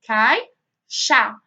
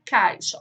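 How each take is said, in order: First: Loud "cai-xa" in two separate beats; syllable by syllable. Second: Said in the usual way. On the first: Shown as a demonstration. Teacher showing pupils the syllable split, "cai-xa" beat by beat. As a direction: punch each half of "cai-xa" with a gap between. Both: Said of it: "Quando for separar".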